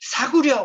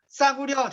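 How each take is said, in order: First: The first consonant is plain and soft. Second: The first consonant is tense and hard. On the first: "사구려 옷을 사서는 이렇게 되는 거지" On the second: "Say again, please. 싸구려, 되시나요?"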